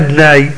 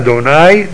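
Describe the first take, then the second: First: The d has no vowel after it. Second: The d is followed by an o vowel. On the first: It means sockets, not the divine name. The speaker calls it wrong. "לא אדני" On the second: It is the divine name. The speaker calls it right. "הדלת צריך להיות בחולם"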